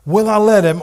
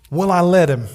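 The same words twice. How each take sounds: First: Repeated higher and louder. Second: Said in the usual way. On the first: Shown as a demonstration. Preacher challenging the congregation, louder repeat. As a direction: push the question harder the second time.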